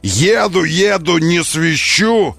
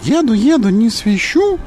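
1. Говорит своим голосом. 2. Говорит, подражая голосу персонажа. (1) "он не так говорил" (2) "он так говорил"

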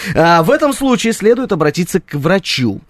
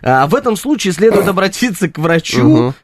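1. Фраза читается серьёзным тоном, как в новостях. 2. Фраза читается игриво, несерьёзным тоном.

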